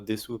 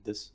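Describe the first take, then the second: First: The final u vowel is pronounced. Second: The final u vowel is dropped.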